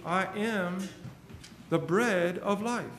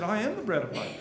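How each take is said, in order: First: "I am the bread of life" drawn out slowly, each word weighed, stress on "bread"; slow emphatic proclamation. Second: Said in the usual way. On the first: Acted.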